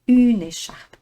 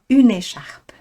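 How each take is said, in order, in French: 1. Les deux mots sont reliés en douceur. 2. Les deux mots sont reliés en douceur.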